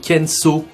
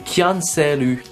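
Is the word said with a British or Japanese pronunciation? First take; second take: British; Japanese. First: It is said with a British English accent. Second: It is said with Japanese loanword pronunciation. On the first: The speaker calls it wrong. "avec l'accent britannique" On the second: The speaker calls it right. "alors qu'en fait c'est"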